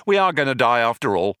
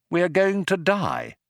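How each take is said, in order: First: Quick, matter-of-fact, falling away; offhand confirmation. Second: Higher-pitched, measured dread; dismayed realisation. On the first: Companion admits he was fooling, offhand verdict. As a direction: toss off the grim verdict briskly. Ford drops the false hope. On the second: Stranded man tells his companion they will die, dismayed. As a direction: spell it out high, word by word. Arthur faces death in the airlock. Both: Acted.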